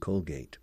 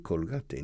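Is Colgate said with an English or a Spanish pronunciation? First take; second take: English; Spanish. First: It is said with an English pronunciation. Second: It is said with a Spanish pronunciation. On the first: This is the original pronunciation. The speaker calls it right. "The correct pronunciation in English, of course, is Colgate" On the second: This is how it is said locally. The speaker calls it wrong. "here in Spain, they say Colgate"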